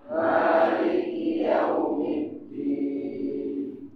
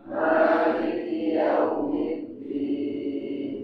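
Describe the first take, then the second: No difference in how they are said.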